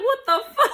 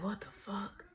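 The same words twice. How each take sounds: First: High, loud, laughing disbelief; high-pitched baffled outburst; retold freak-out. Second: Whispered disbelief; very soft, voiceless shock; retold stunned whisper. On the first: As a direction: blurt it high in mock alarm. Retold freak-out at slow-motion crying. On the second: Retold stunned reaction while high.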